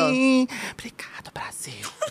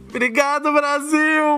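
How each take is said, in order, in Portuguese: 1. É dito sussurrando. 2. É dito com voz normal.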